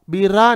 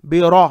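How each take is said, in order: First: बिरा with a light, thin ra; wrong thin ra. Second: बिरा loud, with thick rounded ra; heavy ra. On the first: Teacher shows what to avoid, thin ra. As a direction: flatten the ra in बिरा. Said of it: "बारीक नहीं पढ़ेंगे". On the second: Teacher shows the right syllable, heavy ra. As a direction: fill the mouth on ra in बिरा. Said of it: "रा को मोटा पढ़ेंगे". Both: Shown as a demonstration.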